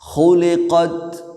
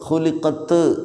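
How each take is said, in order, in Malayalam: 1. അവസാനത്തെ ത് മൃദുവും കൽക്കലയില്ലാത്തതുമാണ്. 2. അവസാനത്തെ ത് കൽക്കലയോടെ വെളിവാക്കപ്പെടുന്നു. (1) "അത് ഖുലിഖത്" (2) "എന്ന് പറയരുത്"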